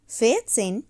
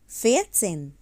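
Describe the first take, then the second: No difference in how they are said.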